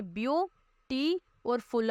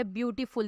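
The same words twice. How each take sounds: First: beauty slowly split as view, टी, then फुल; syllable breakdown. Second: Said in the usual way. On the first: Shown as a demonstration. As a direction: stretch out beauty और फुल part by part. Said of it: "अब इसमें इस तरह से". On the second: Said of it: "देखिए".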